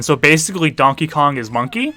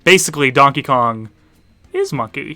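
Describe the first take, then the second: First: "Monkey?" rising as a question. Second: "Monkey" stated without a questioning rise; confirming statement. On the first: Retold or imitated. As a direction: read it out as a question, lifting the end of "Monkey". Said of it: "Was the question". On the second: Real, not acted. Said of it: "The answer is yes".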